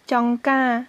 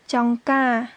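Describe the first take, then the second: No difference in how they are said.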